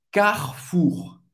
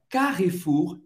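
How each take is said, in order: First: Carrefour as kar-foor, no middle E, throaty R; French pronunciation. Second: Carrefour with Portuguese sounds, every letter said; Brazilian way. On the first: Teacher models the French reading, slowly. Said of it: "em francês, Carrefour é". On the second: Teacher shows the wrong Brazilian reading. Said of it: "você pronuncia de um jeito bem abrasileirado". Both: Shown as a demonstration.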